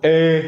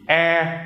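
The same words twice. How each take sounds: First: "eh" held high and loud from the throat; no nose at all on "eh"; throaty, non-nasal vowel. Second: "eh" held high through the nose; nasal vowel. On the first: Teacher names the vowel with the hat, throaty. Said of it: "the non-nasal one". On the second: Teacher names the vowel without the hat, nasal. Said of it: "The more nasal one". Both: Shown as a demonstration.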